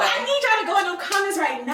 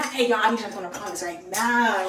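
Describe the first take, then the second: First: High, loud mock order; exaggerated demand. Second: Loud, low put-on order; lower-voiced demand. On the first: Friend demonstrating the comments line, high loud demand. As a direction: shout it high at the followers. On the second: Friend showing another take to followers, low loud demand. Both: Shown as a demonstration.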